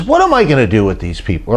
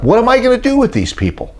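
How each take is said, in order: First: Said in the usual way. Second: 1 exasperated Moses. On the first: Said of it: "Or actually, Moses said to God". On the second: Retold or imitated. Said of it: "Moses said to God".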